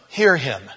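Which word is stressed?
hear. The stress falls on the word hear. A general call to listen. "And I always read it"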